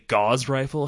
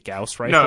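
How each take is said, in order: First: The first word sounds like 'gauze', rhyming with 'cause'. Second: The first word sounds like 'gouse', rhyming with 'house'. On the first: The speaker calls it wrong. "I looked at that word and just assumed it was gauze" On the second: The speaker calls it right. "And then it turns out it's the Gauss rifle"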